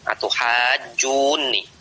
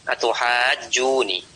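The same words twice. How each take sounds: First: The n sound is held long, doubled. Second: The n sound is short, single. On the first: One n is merged into the other. "membaca dengan mentasdid nunnya" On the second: One of the two n's is dropped. "dengan tanpa tasdid dalam rangka takhfif"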